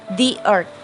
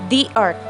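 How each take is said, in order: The two takes are said the same way.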